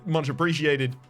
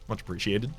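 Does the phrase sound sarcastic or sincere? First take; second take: sincere; sarcastic. First: The phrase sounds warm and sincere. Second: The phrase sounds a little sarcastic. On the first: The thanks are genuinely meant. The speaker calls it right. "it's more of a much appreciated. ... that kind of tone" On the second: The thanks might not be meant. The speaker calls it wrong. "it does sound like there's a little bit of sarcasm in that"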